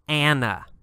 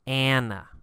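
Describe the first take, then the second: First: The name is said with an American pronunciation. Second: The same.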